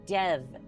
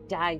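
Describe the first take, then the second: First: It has a short e vowel. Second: It rhymes with the word dive. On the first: "dev with the Y pronounced silently" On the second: "dive as in like you dive into a river"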